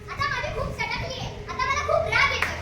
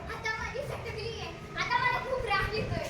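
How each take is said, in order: First: It is said in an angry voice. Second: It is said while laughing.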